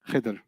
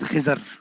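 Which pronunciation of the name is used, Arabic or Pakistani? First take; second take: Arabic; Pakistani. First: The name is said in the Arabic way. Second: The name is said in the Pakistani way.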